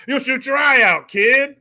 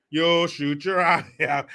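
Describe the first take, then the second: First: Loud, high hammed-up warning; shouted movie-line impression. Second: Slow, drawn-out quote at normal volume; movie-line impression. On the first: Warning a kid about his eye, hammed-up shout. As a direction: belt out the quote, pitched up. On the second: Warning a kid about his eye, slow restrained quote. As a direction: stretch out the warning, held back.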